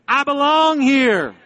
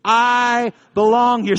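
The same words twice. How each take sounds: First: High, loud, long-held proclamation; rallying declaration, bigger. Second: Loud, high, drawn-out call; rallying declaration. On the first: Preacher has congregation say it again, high ringing slow proclamation. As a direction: push it higher and stretch it out for the crowd. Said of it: "Say it again". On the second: Preacher to congregation, say it with me, loud slow declaration. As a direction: lead a crowd in a slow, raised chant. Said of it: "I want you to say it with me". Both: Shown as a demonstration.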